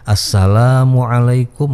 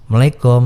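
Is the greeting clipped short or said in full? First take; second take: full; clipped. First: The greeting is said in full. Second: The greeting is clipped and shortened. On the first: The speaker calls it right. "ucapkanlah salam dengan ucapan yang baik" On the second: The speaker calls it wrong. "tidak benar ... singkat, bukan salam yang baik"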